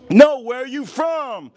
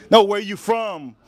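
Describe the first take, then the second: First: Higher, louder and slowed, each word hammered; louder insistent teacher. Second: Sharp, louder demand from a disbelieving teacher; insistent teacher. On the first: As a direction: demand it again, losing patience. Teacher repeats, more forcefully. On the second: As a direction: press the question as if the answer didn't count. Teacher interrogates the American kid. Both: Retold or imitated.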